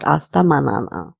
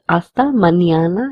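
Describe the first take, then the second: First: The middle consonant is a plain n. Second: The middle consonant sounds like ny. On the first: The speaker calls it wrong. "and not hasta manana" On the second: The speaker calls it right. "we need to pronounce this letter as nia"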